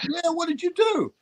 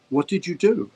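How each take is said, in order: First: Very high-pitched, disbelieving imitation; retold incredulity. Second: Mildly raised pitch, puzzled imitation; retold agent's question. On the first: Agent baffled by the job offer, incredulous. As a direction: demand it in sheer amazement, voice way up. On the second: Agent rings the actor at three o'clock, mildly demanding. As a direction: ask it with a touch of accusation.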